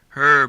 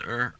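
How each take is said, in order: First: The word is said in full. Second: The word is reduced, dropping the h.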